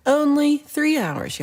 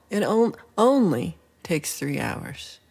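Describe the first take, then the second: First: Only three hours, slow, higher and louder; incredulous exclaim. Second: Only drawn out slowly; stress on only. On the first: Reacting to a viewer's turkey claim with slow disbelief. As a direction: stretch it out in disbelief. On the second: Repeating the viewer's claim, slowly stressing only. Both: Real, not acted.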